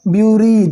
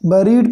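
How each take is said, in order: First: The first syllable sounds like 'byoo'. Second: The first syllable sounds like 'beh'. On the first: The speaker calls it wrong. "ब्यूरीड गलत है" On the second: The speaker calls it right. "बी यू को बा हो जाएगा उच्चारण"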